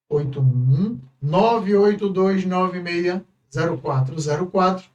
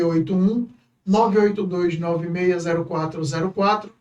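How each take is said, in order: First: The number is read very slowly. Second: The number is read at normal speed.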